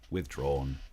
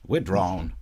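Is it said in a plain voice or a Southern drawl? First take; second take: plain; Southern drawl. First: It is said in a plain, ordinary voice. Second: It is said in a Southern lawyerly drawl.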